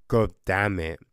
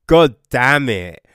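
First: Lower, impressed, savouring it; awed retold reaction. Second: Loud burst of shock; shocked exclamation. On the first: Reviewer retelling his impressed reaction, low awed curse. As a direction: say it like something was dope. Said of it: "So you're like". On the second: Real, not acted. Reviewer reacting to a shocking book line, loud exclamation. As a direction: blurt it out, stunned.

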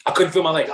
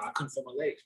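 First: Louder, pressing on feel; emphatic repeat, louder on feel. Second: Quiet first telling, stunned; quiet disbelief. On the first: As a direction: hit "feel" to drive it home. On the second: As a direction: murmur it still stunned. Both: Retold or imitated.

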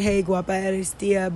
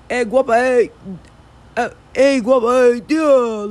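First: Said in the usual way. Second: "guapa" and "tía" run together into one big word, higher and louder; slurred southern catcall. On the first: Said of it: "did you hear, the way I said it?". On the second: Retold or imitated. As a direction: cut out the sounds so it flows as one word. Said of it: "they cut out almost all the words".

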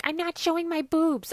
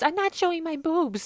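First: Shrieked high and loud, mocking Vicky's protest; Vicky on the street refusing beads, loud high squeal. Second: Vicky repeating her refusal, loud high squeal; mock Vicky refusing again. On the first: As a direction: squeal it like a tipsy girl waving off beads. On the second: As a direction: still shrieking, high and loud. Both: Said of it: "Vicky being like".

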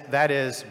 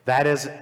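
The two takes are said the same way.

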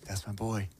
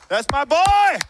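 First: Very soft, low, hushed pride; tender Father in heaven. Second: High, loud whoop of a proud fan; cheering superfan. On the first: God the Father to his child, tender and hushed. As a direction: say it low and softly, as a loving father. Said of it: "Father in heaven who's saying". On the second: A number one fan in the stands cheering his player, proud shout. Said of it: "he's like". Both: Acted.

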